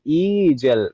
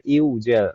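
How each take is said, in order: First: The first vowel runs straight into a y sound. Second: The first vowel is followed by a w sound. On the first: The speaker calls it right. "Jadi ijal" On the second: The speaker calls it wrong. "bukan iujal. Kalau iujal, pertama susah diucapkan, kedua aneh didengarnya"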